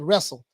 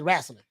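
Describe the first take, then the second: First: The word is said in a plain standard way. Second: The word is said in a Southern rural way. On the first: This is how people outside the South say it. "we don't say wrestle" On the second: This is how people from the South say it.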